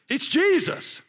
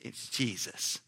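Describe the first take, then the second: First: The name is said strongly and forcefully. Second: The name is said softly and weakly.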